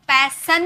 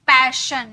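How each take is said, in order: First: पैसन with a plain s, pai-sun; wrong s sound. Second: पैशन with a clear sh, pai-shun; correct sh sound. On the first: Teacher showing students the wrong पैसन with s. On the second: Teacher showing students पैशन with sh. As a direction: say पैशन with श, not स. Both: Shown as a demonstration. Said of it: "पैसन नहीं".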